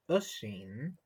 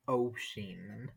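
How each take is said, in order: First: The first vowel sounds like 'oo'. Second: The first vowel sounds like 'oh'. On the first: The name is written without the accent mark. "If it does not have the accent, which you call a fava, it's pronounced usheen" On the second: The name is written with the accent mark. "And if it does have the accent, it's pronounced osheen"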